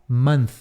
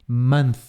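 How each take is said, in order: Both takes have the same delivery.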